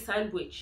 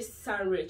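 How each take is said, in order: First: The W sound is pronounced. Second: The W sound is silent. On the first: The speaker calls it right. "you actually pronounce the W there" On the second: The speaker calls it wrong. "You don't say Sandwich"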